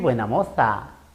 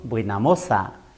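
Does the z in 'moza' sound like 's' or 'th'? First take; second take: th; s. First: The z in moza is a 'th' sound. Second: The z in moza is an 's' sound. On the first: "Nadie dice qué buena moza" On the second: "decimos buena moza"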